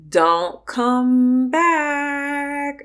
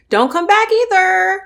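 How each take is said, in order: First: Very slow, stretched warning; drawn-out dismissal. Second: High, louder final warning; firm dismissal. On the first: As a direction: spell each word out. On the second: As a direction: shut the door on them. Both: Real, not acted. Telling off ex-friend directly.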